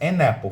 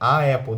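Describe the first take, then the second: First: An n sound links the two vowels. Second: Two vowels meet with no n sound between. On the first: The speaker calls it right. "fica muito mais fácil" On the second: The speaker calls it wrong. "não dá"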